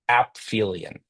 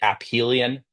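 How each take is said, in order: First: The ph is pronounced as an f sound. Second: The p and h are pronounced separately. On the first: "So like pH with an F" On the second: "You can also say aphelion"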